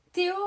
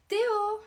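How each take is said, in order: First: Said in the usual way. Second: High, loud call of his name; sharp high shout to get attention. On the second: Acted. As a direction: shout Théo across the classroom. Calling Théo across the class.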